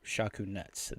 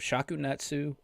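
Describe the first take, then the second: First: The name is clipped, without the final vowel. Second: The name ends with a clear final vowel. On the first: "the more proper way, I guess, or the shortcut way" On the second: "It is actually pronounced Shakunetsu"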